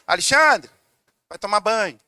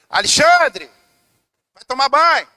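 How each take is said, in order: First: The voice is calm and at normal level. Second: The voice is raised and more forceful. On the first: A first, mild request. "Olha o tom de voz" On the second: Growing impatience at being ignored. "a voz ia subindo"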